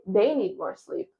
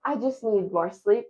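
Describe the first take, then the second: First: They stressed, slow, with a falling end; They is the key word, said slowly, tune falling. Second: I stressed with a rising end; I is the key word, tune rising. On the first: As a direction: lean on They in "They need more sleep". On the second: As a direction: put the weight on I in "I just need more sleep". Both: Shown as a demonstration.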